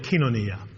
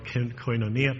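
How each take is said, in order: First: It is said the way Greek speakers say it. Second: It is said the way English speakers say it. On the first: "but they call it kinonia" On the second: "You might have heard of it as koinonia"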